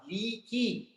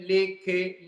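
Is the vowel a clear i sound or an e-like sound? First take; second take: clear i; e-like. First: The vowels are a clear kasrah i sound. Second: The vowels sound like e, not kasrah. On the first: The speaker calls it right. "Yang harus apa?" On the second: The speaker calls it wrong. "Yang baca salah seperti ini"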